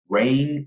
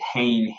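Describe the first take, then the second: First: The word begins with an R sound. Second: The word begins with an H sound. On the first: The speaker calls it right. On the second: The speaker calls it wrong.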